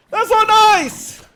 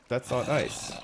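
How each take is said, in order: First: High, loud, slow squealing mock of a scolding; mocking impersonation. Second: Said in the usual way. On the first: Streamer mimics a viewer's scolding, shrill mock. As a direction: shriek it like a prissy scold. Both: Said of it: "the "that's not nice" impersonation".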